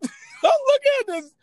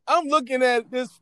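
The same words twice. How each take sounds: First: High, laughing repeat. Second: Said in the usual way. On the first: Real, not acted. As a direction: laugh through the line, way up high.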